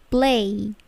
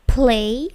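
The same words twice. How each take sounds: First: Slow "play", P gliding straight into the L; unaspirated P. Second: "play" with a hard puffed P; drawn-out "play", P popped with a burst of air; wrong plosive P. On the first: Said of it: "P-nya tidak plosif". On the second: Teacher showing students the wrong play, over-aspirated P. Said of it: "Tidak semua P itu plosif ya. Bukan play". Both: Shown as a demonstration.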